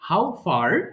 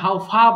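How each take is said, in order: First: The final r sound is pronounced. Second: The final r sound is dropped.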